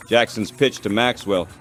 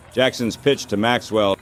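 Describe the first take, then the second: No difference in how they are said.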